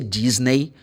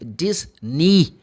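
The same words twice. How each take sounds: First: The final vowel sounds like 'ay'. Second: The final vowel sounds like 'ee'. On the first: Listeners won't understand the place. The speaker calls it wrong. "If you say Disney, they're going to go like, where?" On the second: Listeners understand the place. The speaker calls it right. "The E Y sounds like E"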